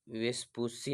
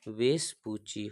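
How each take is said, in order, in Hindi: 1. बीच का व्यंजन s की ध्वनि है। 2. बीच का व्यंजन ch की ध्वनि है। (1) "ये वेस्पूसी नहीं होगा" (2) "वेस्पूची होगा"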